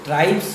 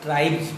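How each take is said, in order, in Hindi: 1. यह शब्द s ध्वनि से खत्म होता है। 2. यह शब्द z ध्वनि से खत्म होता है। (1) "ट्राइब्स नहीं पढ़कर" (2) "एस का उच्चारण बड़ी जॉ हो जाएगा"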